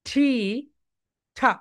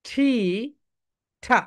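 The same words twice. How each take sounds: Both takes have the same delivery.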